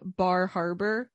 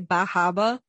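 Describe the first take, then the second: First: The r sounds are pronounced clearly. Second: The r sounds are dropped entirely. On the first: "which is how I would say it" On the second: "a heavy Massachusetts accent"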